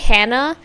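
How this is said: The name is said with an English pronunciation. "When I say Hannah in English"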